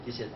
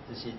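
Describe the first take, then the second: Both takes have the same delivery.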